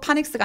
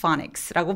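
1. 한국어 p 소리로 시작합니다. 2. 영어 f 소리로 시작합니다. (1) "파닉스가 아니라" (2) "피에이치는 원래 F 소리가 났지?"

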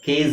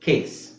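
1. ಪದ ಜುಂ ಎನ್ನುವ z ಶಬ್ದದಲ್ಲಿ ಕೊನೆಯಾಗುತ್ತದೆ. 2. ಪದ ಹಿಸ್ ಎನ್ನುವ s ಶಬ್ದದಲ್ಲಿ ಕೊನೆಯಾಗುತ್ತದೆ. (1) "ಕೇಸ್ ಅಂತ ಹೇಳಲ್ಲ" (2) "ಕಾಮನ್ ಎಸ್ ಸೌಂಡ್ ಬರುತ್ತೆ"

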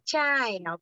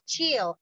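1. La vocal empieza con un sonido de 'a'. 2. La vocal es una i simple, sin a. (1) "como si hubiera una A" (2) "la pronunciación no es child"

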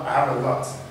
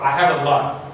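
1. Le T final est clairement prononcé. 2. Le T final est à peine entendu. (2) "Vous n'entendez pas le T clairement"

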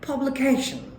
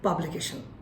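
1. এখানে একটি সিলেবল উঁচু সুরে বলা হয়েছে। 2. এটি সমতল বাংলা ধাঁচের সুরে বলা হয়েছে। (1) "এজ Real pronunciation" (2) "বাংলা tone দিয়ে"

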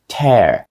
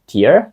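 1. Вимовляється як слово для розриву. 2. Вимовляється як слово для плачу. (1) "це tear. І tear означає рвати" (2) "Також сльоза, tear? Ні"

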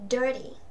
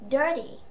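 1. Chữ t được làm nhẹ thành một âm bật nhanh giống d. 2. Chữ t được làm nhẹ thành một âm bật nhanh giống d.

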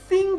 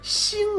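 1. 开头是 'th' 音。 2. 开头是 's' 音。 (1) "但你这发的是thing" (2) "不是星"

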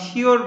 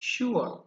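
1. শব্দটি সাধারণ 'or' ধ্বনি দিয়ে শেষ হয়। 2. শব্দটি oo-uh গ্লাইড দিয়ে শেষ হয়।

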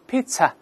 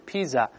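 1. 中间的辅音是ts音。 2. 中间的辅音是z音。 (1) "pizza 不是" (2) "不是pizza"

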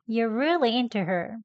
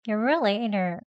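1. 'into'의 to는 짧고 빠르게 발음합니다. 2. 'into'의 t는 거의 소리 없이 공기만 나갑니다. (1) "다음은 짧게 합니다" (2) "아예 소리는 나오지 않게 공기만 나오도록"

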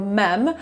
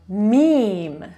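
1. Słowo wymawia się na sposób spolszczony. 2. Słowo wymawia się na sposób angielski. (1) "Spolszczyłam je sobie jako mem" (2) "ale mówimy meme"

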